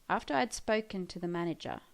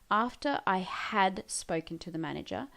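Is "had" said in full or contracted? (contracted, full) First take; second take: contracted; full. First: Had is shortened to a d sound. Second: The word had is said in full. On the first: "when we speak, we just would say, after I'd" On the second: "that's what we would do if we were writing"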